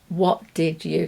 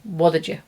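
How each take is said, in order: First: Each word is said fully and separately. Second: The words are run together into a reduced form.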